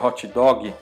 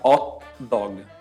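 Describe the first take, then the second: First: It is said with a Portuguese accent. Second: It is said with an Italian accent, no h. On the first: "em português a gente falaria" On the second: "Em italiano a gente fala hot dog, sem pronunciar o H"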